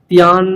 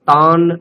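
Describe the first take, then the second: First: A y-glide comes before the vowel. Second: The vowel follows without any y-glide. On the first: The speaker calls it wrong. "এরকম জফলা উচ্চারণ হচ্ছে আপনার, সেটা করা চলবে না" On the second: The speaker calls it right. "শুদ্ধ আকার"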